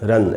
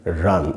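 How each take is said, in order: First: The vowel after r is cut short. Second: The vowel after r is held slightly longer. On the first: The speaker calls it wrong. "इसको ऐसे नहीं बोलेंगे" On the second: The speaker calls it right. "र के बाद पूरा अ है तो वहाँ थोड़ा रुकना चाहिए, ऐसे पढ़ना चाहिए"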